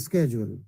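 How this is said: The word is said in an American accent. "Those who love American accent"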